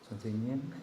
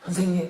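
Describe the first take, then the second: First: It sounds grudging, with feelings held back. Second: It sounds eager and warmly grateful. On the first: He hides his reluctance and doubt. The speaker calls it right. "이런 억양 아니었겠어요?" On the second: He gladly welcomes the instruction. The speaker calls it wrong. "이게 아니라"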